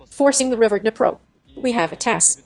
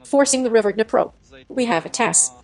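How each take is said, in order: Both takes have the same delivery.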